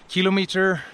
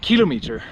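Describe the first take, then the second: First: It is said with a British pronunciation. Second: It is said with an American pronunciation. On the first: "In the British English, you say kilometer" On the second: "here in America, it's different. So from now on, I'm gonna try to say kilometer"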